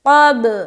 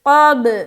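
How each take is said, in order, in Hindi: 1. अंतिम b एक गूँजती उछाल के साथ छोड़ा जाता है। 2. अंतिम b एक गूँजती उछाल के साथ छोड़ा जाता है।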